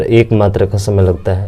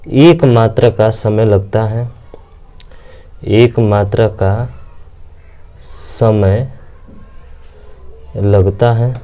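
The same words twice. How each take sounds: First: Said in the usual way. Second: Slow, spaced-out dictation pace; drawn out so students can write it down. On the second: Shown as a demonstration. Teacher dictating a definition to students, slow and spaced.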